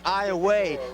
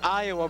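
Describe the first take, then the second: First: The word ends with a 'way' sound. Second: The word ends with an 'uh' sound. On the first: The speaker calls it right. "it's actually pronounced Iowa" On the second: The speaker calls it wrong. "sometimes we catch ourselves saying Iowa"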